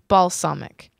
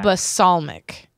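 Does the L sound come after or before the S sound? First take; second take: before; after. First: The L sound comes before the S sound. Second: The S sound comes before the L sound. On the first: The speaker calls it right. "so the L comes before the S" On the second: The speaker calls it wrong.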